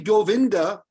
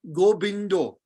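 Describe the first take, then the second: First: The middle consonant is a 'v' sound. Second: The middle consonant is a 'b' sound. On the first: "if you say Govinda" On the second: "the V in Bengali becomes B"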